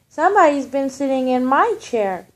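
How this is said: It is said in a middle-sized voice.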